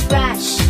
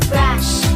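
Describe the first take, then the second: No difference in how they are said.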